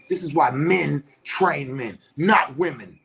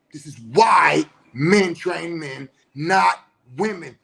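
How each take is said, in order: First: Said in the usual way. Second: Slow, louder, near-crying shout; loud emphatic repeat. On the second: Real, not acted. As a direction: hammer it home slowly, voice cracking. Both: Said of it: "repeats line for emphasis".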